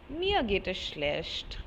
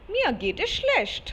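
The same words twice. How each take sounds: First: It is said in a low, gloomy tone. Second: It is said in a bright, cheerful tone. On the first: The speaker calls it right. "it should be very clear in your voice" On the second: The speaker calls it wrong. "No, that is wrong"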